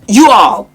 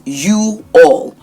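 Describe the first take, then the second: First: "You all" run together, loud and high; slurred wrong example. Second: "you all" as two separate, drawn-out words; properly enunciated. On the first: Coach showing what not to say, run-together "You all". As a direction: blurt "You all" as one quick casual word. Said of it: "there's nothing like that". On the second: Coach showing how you speak, carefully separated "you all". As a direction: give "you" and "all" each full length. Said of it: "That's how you speak". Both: Shown as a demonstration.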